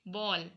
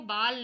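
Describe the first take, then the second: First: The vowel is a rounded open 'aw' sound. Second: The vowel is a plain open 'aa' sound. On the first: The speaker calls it right. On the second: The speaker calls it wrong. "वो बाल नहीं है"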